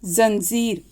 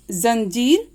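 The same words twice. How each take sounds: First: जंजीर said "zanzeer", both consonants buzzing z; z in both places. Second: जंजीर said "zanjeer", z first and j second; only the first ज buzzed in जंजीर; z then plain j. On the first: Teacher gives example of dotted letter, जंजीर as "zanzeer". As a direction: make both ज sounds z in जंजीर. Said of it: "ज के नीचे अगर बिंदी लग गई". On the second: Teacher repeats the example word, जंजीर as "zanjeer". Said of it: "ज एक सिंपल होता है". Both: Shown as a demonstration.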